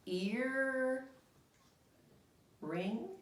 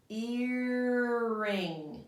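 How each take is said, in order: First: Said in the usual way. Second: Earring drawn out as one smooth word; Earring said slowly as one word, not two; blended word. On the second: Shown as a demonstration. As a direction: glide the two parts together. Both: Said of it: "We just look at the pictures".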